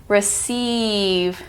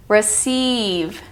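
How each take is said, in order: Both takes have the same delivery.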